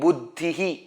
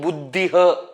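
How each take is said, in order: First: The final visarga is sounded as 'hi'. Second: The final visarga is sounded as 'ha'. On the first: The speaker calls it right. "I am saying Buddhihi" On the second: The speaker calls it wrong. "I am not saying Buddhiha"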